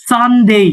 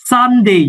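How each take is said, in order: The two takes are said the same way.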